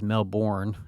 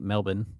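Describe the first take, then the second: First: The R sound is pronounced in the word. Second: The R sound is dropped from the word. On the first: This is how the speaker's own community says it. "what we would say is Melbourne" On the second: This is how the locals say it. "what they say Melbourne. ... there's not a lot of pronun pronunciation of the R's"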